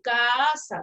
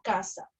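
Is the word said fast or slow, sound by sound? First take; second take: slow; fast. First: It is said slowly, sound by sound. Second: It is said quickly in one smooth run. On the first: The speaker calls it wrong. "nosotros no hablamos así, no decimos" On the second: The speaker calls it right. "Nosotros decimos casa. ... esa rapidez"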